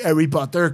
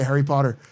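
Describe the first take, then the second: First: It is said with a Québécois French accent. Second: It is said with an English accent. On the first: "Quand je parle en québécois, je dis" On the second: "comme si je peux pas le dire en anglais"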